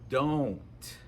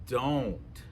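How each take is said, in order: First: The O vowel is rounded and gliding. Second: The O vowel is rounded and gliding.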